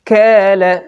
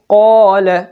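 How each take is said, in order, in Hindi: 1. पहला व्यंजन बारीक है, और आगे की ओर। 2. पहला व्यंजन मोटा है, गले के अंदर गहराई से। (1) "अगर बारीक अदा किया तो ये यूं होगा" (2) "जैसे हम पढ़ते हैं कौल"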